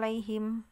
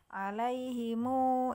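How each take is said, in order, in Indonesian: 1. Kata ini berakhir dengan bunyi m polos. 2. M terakhir diikuti vokal. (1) "kalau berhenti dia tidak dibaca dua harokat, ... disukun" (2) "dibacanya dua haro, dua harokat menjadi alaihimu"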